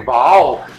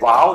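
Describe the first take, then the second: First: It is said with a German accent. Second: It is said with a native English accent.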